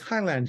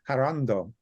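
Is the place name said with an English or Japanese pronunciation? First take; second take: English; Japanese. First: It is said with an English pronunciation. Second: It is said with a Japanese pronunciation. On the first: "it says Highland here" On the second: "the Japanese actually pronounce it Harando"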